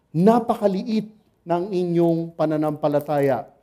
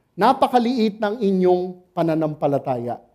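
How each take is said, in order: Both takes have the same delivery.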